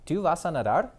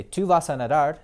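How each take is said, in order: First: "Tú vas a nadar?" said with the pitch rising at the end; question tone. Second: "Tú vas a nadar" said as a firm statement with a level close. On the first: Teacher turning the sentence into a question for students, rising question. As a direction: ask "Tú vas a nadar?", lifting the last word "nadar". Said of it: "Or I can ask you". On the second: Teacher contrasting a statement with a question for the class, firm statement. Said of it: "I'm stating the fact that you're going to swim". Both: Shown as a demonstration.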